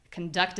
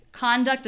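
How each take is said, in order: First: K'n-DUCT with a reduced first vowel; weak con, strong DUCT in "conduct"; stress on second syllable. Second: CON-duct with a clear first vowel; stress on first syllable. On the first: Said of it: "conduct is the noun". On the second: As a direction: lean on the CON of "conduct". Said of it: "conduct is the verb". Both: Shown as a demonstration.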